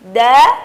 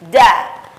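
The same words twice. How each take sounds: First: The syllable is clear with no breath. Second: The syllable is said with escaping breath. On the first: The speaker calls it right. "dal dikeluarkan dengan suara yang bersih, suara yang jernih tanpa beriringan dengan nafas" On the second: The speaker calls it wrong. "Tidak boleh huruf dal dilafazkan dengan nafas beriringan"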